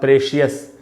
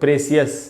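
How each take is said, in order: First: The ending is said as two syllables, shee-us. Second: The ending is said as two syllables, see-us. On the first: "या प्रेशियस" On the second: "इसको अपने आप पढ़ लेते लोग प्रेसियस"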